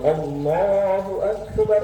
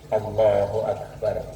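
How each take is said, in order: First: It is said loudly and fully. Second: It is said softly and quietly. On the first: A relayer repeats it for the congregation. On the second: The prayer leader says it himself.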